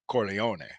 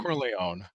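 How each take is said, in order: First: It is said the Italian way. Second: It is said the American way.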